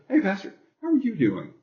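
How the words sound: It sounds like a sincere, concerned question.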